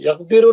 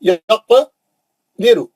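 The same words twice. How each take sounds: First: The q sound stops flat without an echo. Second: The q sound ends with a short echoing bounce. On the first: The speaker calls it wrong. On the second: The speaker calls it right.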